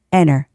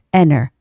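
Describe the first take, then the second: The two takes are said the same way.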